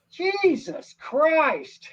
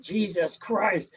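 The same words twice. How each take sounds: First: Drawn-out, high, loud exclamation; loud outburst. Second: Mild retold blurt. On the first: Retold or imitated. Old man in theater shouting at the screen, loud outburst. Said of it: "Really loud". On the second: Retelling the theatergoer's blurt, mild mock exclamation. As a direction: lightly recall the outburst. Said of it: "he just blurted it out".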